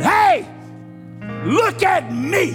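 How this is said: It is said firmly, with authority.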